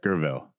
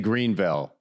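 First: The name is said in a clipped Southern local way. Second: The name is said with a full standard pronunciation. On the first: This is how the locals say it. "Gerville is how they would say it" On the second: This is how outsiders say it. "They wouldn't say Greenville"

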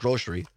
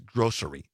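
First: The middle consonant is an 'sh' sound. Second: The middle consonant is an 's' sound. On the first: It reflects a regional Southwest Wisconsin habit. The speaker calls it wrong. "I put an SH in it. ... I've always said grocery" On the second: It is the standard pronunciation. The speaker calls it right. "I know the correct way is grocery"

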